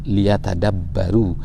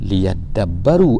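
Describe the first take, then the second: First: The syllable ta is kept before the d. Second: The syllable ta is dropped into the d. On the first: "asal daripada perkataan ini" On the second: "diringkaskan ataupun diringankan"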